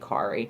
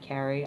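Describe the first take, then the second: First: The name is said with a Scandinavian pronunciation. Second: The name is said with an American pronunciation. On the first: "if I were in Norway or Sweden or any Scandinavian country, it would obviously be Kari" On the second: "K A R I just obviously looks like Carrie"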